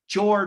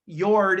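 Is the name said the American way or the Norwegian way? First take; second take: American; Norwegian. First: The name is said with an American pronunciation. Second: The name is said with a Norwegian pronunciation. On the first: "maybe like Jord or Ford uh, from the standpoint of uh, U S" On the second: "pronounced Jord in Norwegian"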